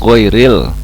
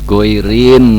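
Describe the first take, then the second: First: The word ends with an l sound. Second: The word ends with an n sound. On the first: The speaker calls it right. "Yang betul goiril" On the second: The speaker calls it wrong. "udah amanu salah, terus goirin lagi"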